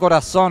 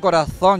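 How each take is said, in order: First: The z is said with an s sound. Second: The z is said with a th sound. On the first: "yo digo corazón. Los canarios no pronunciamos la Z" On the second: "Yo no digo corazón"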